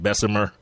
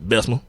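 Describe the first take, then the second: First: The word is said with three syllables. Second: The word is said with two syllables. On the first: This is the standard form of the name. "it's actually like Bessemer ... It's really a three syllable word" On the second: This is how the locals say the name. "they just pronounce it ... two syllables"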